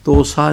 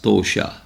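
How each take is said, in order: First: The middle consonant is a plain 's' sound. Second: The middle consonant is an 'sh' sound. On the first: The speaker calls it wrong. "ਤੋਸਾ ਨਹੀਂ ਕਹਿਣਾ" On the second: The speaker calls it right. "ਤੋਸ਼ਾ ਹੈ ਲਫਜ਼"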